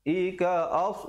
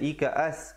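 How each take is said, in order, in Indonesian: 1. Bunyi s itu tebal dan tegas. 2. Bunyi s itu tipis dan biasa.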